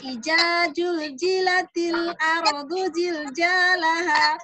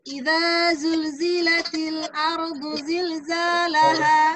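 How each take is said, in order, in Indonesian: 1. Kata-kata itu diucapkan dengan bunyi j. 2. Kata-kata itu diucapkan dengan bunyi z. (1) "bahasa pertamanya tadi yang dia ingat itu jim" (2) "Zai ya"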